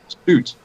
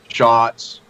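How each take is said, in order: First: The name rhymes with boots. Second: The name begins with sh, short o. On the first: The speaker calls it right. "like boots, like roots" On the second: The speaker calls it wrong. "slaughtered my both my names"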